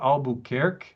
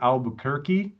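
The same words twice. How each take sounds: First: It is said with a Portuguese pronunciation. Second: It is said with an American English pronunciation.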